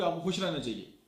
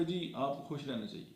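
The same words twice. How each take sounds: First: Upbeat, convincing advice; happier tone. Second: Joyless. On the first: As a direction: say it as if you mean the happiness. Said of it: "मेरी बात ज़्यादा बेहतर पहुँचेगी". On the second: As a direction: say it without any happiness. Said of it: "वो खुशी की नहीं है". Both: Shown as a demonstration.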